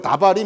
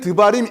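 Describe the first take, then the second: First: The first vowel is a full 'a' sound. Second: The first vowel is a short reduced sound. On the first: This is an easier reading that is still acceptable. "여러분 편할 대로 다바림 이렇게 읽어도 누가 뭐라고 안 그래요" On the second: This is how it is read in the Bible. "읽기는 드바림 읽지만, 여러분 성경책 읽으면서 그렇게 읽지만"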